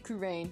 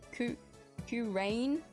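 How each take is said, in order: First: The name is run together as two syllables. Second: The name is split into three syllables. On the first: It is easier to say smoothly. The speaker calls it wrong. "as like two syllables" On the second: It follows the apostrophe in the written name. The speaker calls it right. "the way you say it"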